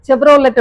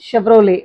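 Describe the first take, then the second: First: The word begins with a 'ch' sound. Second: The word begins with an 'sh' sound. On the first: The speaker calls it wrong. "செவ்ரோலெட் அப்படின்னு சொல்லுவாங்க" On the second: The speaker calls it right. "அது வந்து pronunciation ஷெவ்ரோலே"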